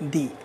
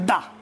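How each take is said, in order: First: The vowel is a long 'ee' sound. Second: The vowel is a short, weak 'uh' sound. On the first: The next word begins with a vowel. "The just before vowel we should use we should pronounce it the" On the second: The next word begins with a consonant. "if you see consonant of the word before which we should use the, then we should pronounce it the"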